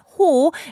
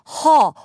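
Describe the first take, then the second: First: The vowel is a rounded 'oh' sound. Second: The vowel is an open 'uh' from the throat. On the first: The speaker calls it wrong. "It's not ho" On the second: The speaker calls it right. "it's 허, ... it comes out of your throat"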